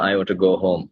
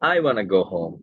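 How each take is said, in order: First: Each word is said separately and in full. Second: The words blend quickly, 'want to' becomes 'wanna'.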